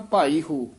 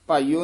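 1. ਅੰਤਿਮ ਸਵਰ ਤੋਂ ਪਹਿਲਾਂ h ਬੋਲਿਆ ਜਾਂਦਾ ਹੈ। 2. h ਛੱਡ ਦਿੱਤਾ ਜਾਂਦਾ ਹੈ, ਅਤੇ ਦੋਵੇਂ ਸ਼ਬਦ ਇਕੱਠੇ ਹੋ ਜਾਂਦੇ ਹਨ। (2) "ਭਾਈਓ ਨਹੀਂ ਕਹਿ ਦੇਣਾ"

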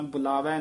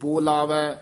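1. ਪਹਿਲਾ ਸੁਰ ਛੋਟਾ 'u' ਹੈ। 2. ਪਹਿਲਾ ਸੁਰ ਲੰਮਾ 'o' ਹੈ। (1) "ਬੁਲਾਵੈ ਨਹੀਂ ਕਹਿਣਾ" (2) "ਬੱਬੇ ਦੇ ਹੋੜਾ ਦੀਰਘ ਉਚਾਰਨ ਕਰਨਾ"

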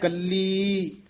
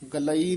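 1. ਸ਼ਬਦ ਇੱਕ ਲੰਬੀ ee ਧੁਨੀ ਨਾਲ ਖ਼ਤਮ ਹੁੰਦਾ ਹੈ। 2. ਸ਼ਬਦ ਵੱਖ-ਵੱਖ a ਅਤੇ ee ਸਵਰਾਂ ਨਾਲ ਖ਼ਤਮ ਹੁੰਦਾ ਹੈ। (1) "ਗੱਲੀ, ਗਲਈ ਨਹੀਂ ਕਹਿਣਾ" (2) "ਗਲਈ ਨਹੀਂ ਕਹਿਣਾ"

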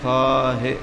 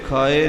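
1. ਇਹ ਸ਼ਬਦ ਵਿਚਕਾਰ ਸਾਫ਼ ਹ ਧੁਨੀ ਨਾਲ ਬੋਲਿਆ ਜਾਂਦਾ ਹੈ। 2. ਇਹ ਸ਼ਬਦ ਵਿਚਕਾਰਲੀ ਹ ਧੁਨੀ ਤੋਂ ਬਿਨਾਂ ਬੋਲਿਆ ਜਾਂਦਾ ਹੈ। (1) "ਖਾਹੀ ਖਾਹੇ ਹਾਹੇ ਨਾਲ" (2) "ਇਹ ਖਾਏ ਨਹੀਂ ਹੈ"

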